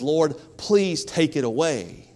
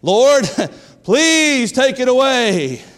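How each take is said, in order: First: It is said at a normal, quieter volume. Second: It is said noticeably louder.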